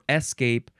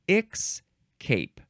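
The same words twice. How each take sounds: First: It is said with no k sound before s. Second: It is said with a k sound before s. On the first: "you can say escape or escape" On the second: "They add a, a k sound between the E and the S"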